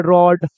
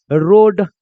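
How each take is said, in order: First: "रॉड" with an open aw vowel. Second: "रोड" with a long pure o. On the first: Teacher showing how people say it, open o. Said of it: "इसको लोग बोलता है". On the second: Teacher sounding out the word, long o. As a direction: stretch the o in "रोड". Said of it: "तो क्या बन जाएगा". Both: Shown as a demonstration.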